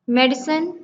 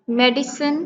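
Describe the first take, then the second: First: Said in the usual way. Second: "मेडिसिन" drawn slightly into medi-cine; measured by syllable. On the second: Shown as a demonstration. Teacher counting syllables in medicine, said part by part. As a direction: say "मेडिसिन" carefully in its parts. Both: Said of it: "two syllable".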